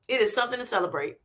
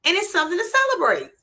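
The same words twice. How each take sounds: First: "It is" spelled out, weight on It and is, fast and softer; emphatic correction of "it's" to "It is"; stress on IS. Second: Said in the usual way. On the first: Shown as a demonstration. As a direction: insist that "It is something to celebrate", hitting "It is".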